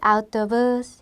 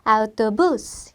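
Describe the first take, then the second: First: The final syllable is weak and unstressed. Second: The final syllable is higher and stronger. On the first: The speaker calls it wrong. "이게 아니라" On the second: The speaker calls it right. "좀 더 높고 세게 올려주는 발음"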